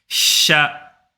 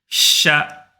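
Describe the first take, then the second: The two takes are said the same way.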